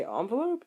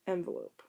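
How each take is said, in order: First: First envelope said ON-velope, broad ah. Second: Second envelope said EN-velope, short e. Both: Shown as a demonstration. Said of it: "people that say envelope and people that say envelope".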